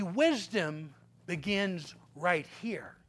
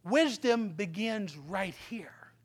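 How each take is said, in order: First: Slow, soft and low; preacher making a point hushed; soft emphasis. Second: Slow, whispered emphasis; preacher whispering the key lesson. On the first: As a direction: lean in and lower the voice. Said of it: "repeated quietly". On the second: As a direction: breathe the words to the congregation. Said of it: "repeated as whisper". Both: Shown as a demonstration.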